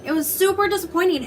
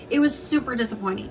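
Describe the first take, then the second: First: Higher, leaning hard on super; stressed super in the repeat; emphatic repeat. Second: Said in the usual way. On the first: Real, not acted. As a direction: say it again with more weight on super.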